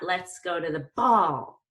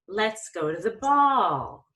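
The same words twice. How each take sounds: First: The pitch jumps up with an abrupt punch. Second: The pitch moves up smoothly without a jolt. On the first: The speaker calls it wrong. "Like you don't want to punch somebody" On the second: The speaker calls it right.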